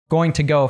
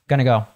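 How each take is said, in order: First: Each word is pronounced fully and separately. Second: The words are reduced and run together.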